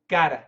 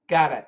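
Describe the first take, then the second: First: The T is flapped, sounding close to a D. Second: The same.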